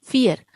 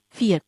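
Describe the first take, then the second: First: फियर said as German vier, with an F sound; German pronunciation. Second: फियर repeated as German vier, starting with an F; German pronunciation. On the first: Teacher models फियर for the class, a clear German F. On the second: Teacher repeats फियर after explaining, a careful German F. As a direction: give फियर once more, a clean F and a long ee. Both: Shown as a demonstration. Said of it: "इसका pronunciation फ से होगा".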